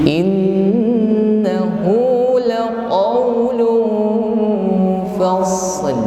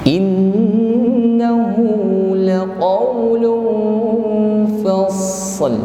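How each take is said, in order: No difference in how they are said.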